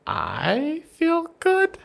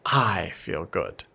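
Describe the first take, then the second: First: It is said with high, rising questioning pitch. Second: It is said as a flat statement, falling.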